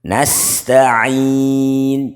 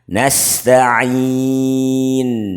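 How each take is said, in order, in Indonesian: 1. Huruf n terakhir kurang dengungnya. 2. Huruf n terakhir memiliki dengung sengau yang sedang. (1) "nah ini yang kurang" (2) "Ini yang betul"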